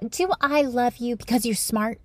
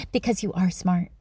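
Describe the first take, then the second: First: Softer rising question; dad asking. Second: Softer, lower falling statement; dad answering. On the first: Dad asking daughter at bedtime, soft question. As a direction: ask it gently, lifting the end. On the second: Dad offering daughter an answer, low soft fall. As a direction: let it sink low and quiet. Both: Retold or imitated. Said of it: "And then he goes on".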